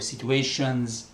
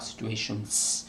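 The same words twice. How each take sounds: First: The final S is voiced, like a Z. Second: The final S is voiceless, like a hiss. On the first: The speaker calls it right. "the S is always voiced" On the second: The speaker calls it wrong. "not situations"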